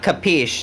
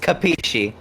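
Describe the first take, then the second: First: It is said in the clipped slang form. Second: It is said in the standard Italian form. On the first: The speaker calls it wrong. "It's not capiche. That's improper Italian" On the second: The speaker calls it right. "It's capisci"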